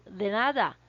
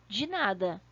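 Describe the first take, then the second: First: "de nada" with a clear Spanish d, not d͡ʒi. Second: "de nada" as Brazilians say it, d͡ʒi nadɐ; the Brazilian "dji nada" for contrast; Portuguese de nada. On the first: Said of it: "percebam que quando eu falo "de nada", é diferente". ("de nada" com o d espanhol, sem som de dji) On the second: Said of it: "é diferente de". ("de nada" à brasileira, com dji) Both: Shown as a demonstration.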